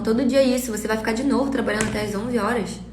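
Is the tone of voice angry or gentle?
gentle. It is said in a soft, gentle tone. "pode ser em outro tom, pra não parecer que a agressividade está no tom de voz"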